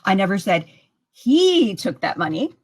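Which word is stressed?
he. The stress falls on the word he. Somebody else took it. "That could mean that somebody else took it"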